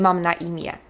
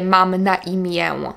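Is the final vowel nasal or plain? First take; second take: plain; nasal. First: The final vowel is a plain e. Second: The final vowel is nasal. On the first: The speaker calls it right. "Tak jakby tam było e" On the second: The speaker calls it wrong. "Nie mówię"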